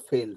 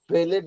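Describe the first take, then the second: First: The word is said as one syllable. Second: The ending is said as an extra syllable. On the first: The speaker calls it right. "फेल्ड होगा" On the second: The speaker calls it wrong. "फेलेड नहीं होगा"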